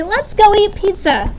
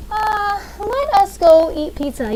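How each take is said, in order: First: Said in the usual way. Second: Slow and stiff, "let us" said as two full separate words; stiff, uncontracted. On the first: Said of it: "You say". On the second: Shown as a demonstration. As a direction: spell out "let us" word by word, awkwardly, as nobody really talks. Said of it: "We don't say".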